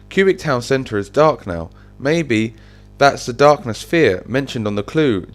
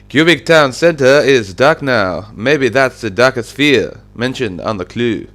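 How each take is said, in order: First: It is said without a French accent. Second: It is said in a put-on French accent.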